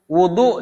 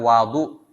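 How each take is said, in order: First: The first vowel is a rounded 'u' sound. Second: The first vowel is an open 'a' sound. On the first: It names the act of washing. "wudu dengan dhammah wawu" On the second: It names the water used for washing. "dengan membaca fathah pada huruf waw, jadi bacanya al wudu"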